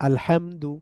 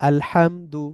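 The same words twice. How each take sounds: Both takes have the same delivery.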